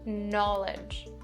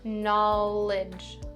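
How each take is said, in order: First: The second syllable has an 'ih' vowel. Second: The second syllable has an 'ih' vowel.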